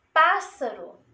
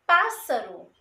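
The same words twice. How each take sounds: First: 1 model. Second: Said in the usual way. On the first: Shown as a demonstration. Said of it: "Dois, dois S's".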